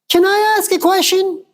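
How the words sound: It is said in an unpleasant put-on voice.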